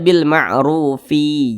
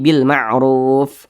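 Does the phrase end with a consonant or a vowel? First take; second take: vowel; consonant. First: The phrase ends with an added i vowel. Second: The phrase ends on a stopped f consonant. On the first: The speaker calls it wrong. "jangan dibaca bil ma'rufi" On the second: The speaker calls it right. "Tapi bil ma'ruf"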